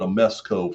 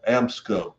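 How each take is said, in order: First: The name has three syllables, an extra middle vowel. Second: The name has two syllables, no middle vowel. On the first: The speaker calls it wrong. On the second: The speaker calls it right.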